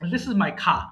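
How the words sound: The r at the end is dropped. The speaker calls it wrong. "কার কার না করে খা বলে"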